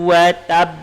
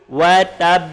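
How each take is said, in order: Both takes have the same delivery.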